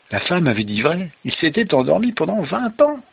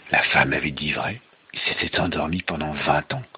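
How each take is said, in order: First: High, rising storytelling revelation; amazed narration. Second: Low, measured storytelling revelation; low and grave. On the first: Father retelling the revelation to child, amazed narration. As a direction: lift the voice in astonishment. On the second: Father revealing Rip's long sleep, low and grave. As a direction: drop the voice for the revelation. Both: Acted.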